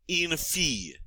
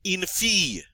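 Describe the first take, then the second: First: Softer repeat of fille, double L as a Y; pronounced fille. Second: Fille said like fee, the double L as a Y; pronounced fille. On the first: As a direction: model fille again, quieter. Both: Shown as a demonstration. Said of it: "the double L here is pronounced like a Y".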